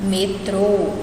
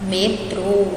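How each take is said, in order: No difference in how they are said.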